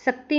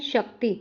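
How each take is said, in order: First: शक्ति as सक्ति, opening on s; mistaken sibilant. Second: शक्ति opening on sh; correct sibilant. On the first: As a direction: say शक्ति with s instead of sh. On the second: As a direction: give शक्ति a full sh at the start. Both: Shown as a demonstration. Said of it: "शक्ति नहीं".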